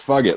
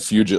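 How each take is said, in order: First: The name sounds like the phrase 'fuck it'. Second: The name does not sound like 'fuck it'. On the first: The speaker calls it right. "Bruce Buffer said it right" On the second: The speaker calls it wrong. "that's not how you would say that"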